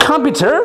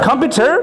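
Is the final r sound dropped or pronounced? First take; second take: pronounced; pronounced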